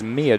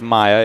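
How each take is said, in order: First: The name is said as MEE-uh. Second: The name is said as MY-uh. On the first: The speaker calls it right. "It is Mia Johnson" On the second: The speaker calls it wrong. "was mispronouncing her name as Maya"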